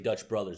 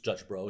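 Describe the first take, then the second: First: The second word is said in full, two syllables. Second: The second word is said short, one syllable. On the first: The speaker calls it wrong. "I say Dutch Brothers" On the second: The speaker calls it right. "it's Dutch Bros"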